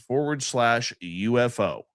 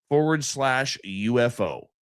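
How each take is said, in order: Both takes have the same delivery.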